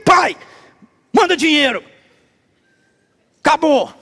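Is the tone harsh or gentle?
harsh. It is said in a harsh, demanding tone.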